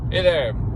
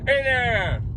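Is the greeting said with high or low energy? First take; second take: low; high. First: It is said with low, flat energy. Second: It is said with very high, lively energy. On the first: The other person will answer with little enthusiasm. The speaker calls it wrong. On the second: The other person will answer warmly and easily. The speaker calls it right.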